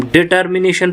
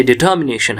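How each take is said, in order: First: "डिटर्मिनेशन" with a sounded r after the t; common wrong pronunciation. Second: "डिटर्मिनेशन" with the r dropped, di-tuh-mi-NAY-shun; taught pronunciation. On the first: Teacher shows how students usually read it, "डिटर्मिनेशन" with r sounded. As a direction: say "डिटर्मिनेशन" as spelt, r and all. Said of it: "पढ़ते हैं लेकिन नहीं है". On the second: Teacher gives the correct form, "डिटर्मिनेशन" without an r. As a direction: drop the r in "डिटर्मिनेशन". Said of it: "ये डिटर्मिनेशन है". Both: Shown as a demonstration.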